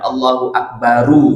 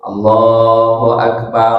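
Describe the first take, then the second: First: The final r is followed by a u-vowel. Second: The final r is followed by an a-vowel. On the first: The speaker calls it wrong. "bukan Allahu Akbaru" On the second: The speaker calls it right. "Kalau mau nyambung ... harokat fathah"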